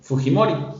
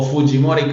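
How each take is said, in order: First: The name is said with ordinary Spanish pronunciation. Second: The name is said with Japanese-style pronunciation.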